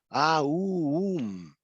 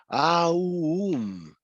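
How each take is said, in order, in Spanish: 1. Antes de la m, se desliza de la a a la u. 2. Antes de la m, se desliza de la a a la u.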